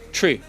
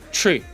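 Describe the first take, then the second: The two takes are said the same way.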